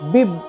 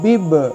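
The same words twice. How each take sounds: First: The final b is stopped without any bounce. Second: The final b is released with a bounce. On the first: The speaker calls it wrong. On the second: The speaker calls it right.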